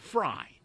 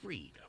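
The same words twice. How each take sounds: First: The vowel sounds like 'eye'. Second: The vowel sounds like 'ee'. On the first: The speaker calls it wrong. "You wouldn't say" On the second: The speaker calls it right. "You would say"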